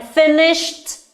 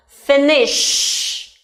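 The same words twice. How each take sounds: First: Said in the usual way. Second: "Finished" with a long sh, then a separate t; ending first, then T. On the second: Shown as a demonstration. Teacher demonstrating the T ending, sounds separated. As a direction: hold the sh of "Finished", pause, release t. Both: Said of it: "pronounce ending sound first and then add T".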